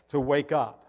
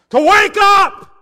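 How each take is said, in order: First: Said in the usual way. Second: Huge high slow shout; full shout. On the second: Real, not acted. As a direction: bellow it from the pulpit. Preacher shouts wake-up call.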